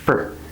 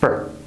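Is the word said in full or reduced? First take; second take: reduced; reduced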